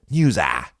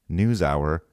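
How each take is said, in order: First: Hour is squashed into a single syllable. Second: Hour is said with two syllables. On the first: The speaker calls it wrong. "it's always News Ah" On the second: The speaker calls it right. "instead of pronouncing it News Hour"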